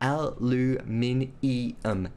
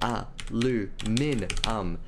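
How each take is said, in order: First: The word is said with five syllables, ending 'nium'. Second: The word is said with four syllables, ending 'num'. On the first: The speaker calls it right. "There's an I there" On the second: The speaker calls it wrong. "It's not aluminum"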